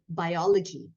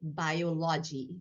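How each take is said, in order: First: It is said with American stress placement. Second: It is said with Indian stress placement. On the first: "in here you would say the word biology, and the emphasis is different" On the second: "Whereas in India, you might say biology"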